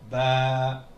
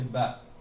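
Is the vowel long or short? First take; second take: long; short. First: The vowel is drawn out long. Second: The vowel is short. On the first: "Avec le alif, qui est une longue voyelle" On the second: "avec la courte voyelle, avec la fatha"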